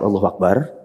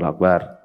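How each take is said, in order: First: The phrase ends open, as if continuing. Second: The phrase ends with a final, closing fall. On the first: The sentence goes on as one whole. The speaker calls it right. "tapi di koma semua" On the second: The sentence is complete here. The speaker calls it wrong. "Itu baru titik"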